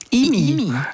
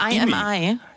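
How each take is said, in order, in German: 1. Es wird als ein einziges Wort gesprochen. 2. Es wird als drei einzelne Buchstaben gesprochen. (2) "Nicht I-M-I"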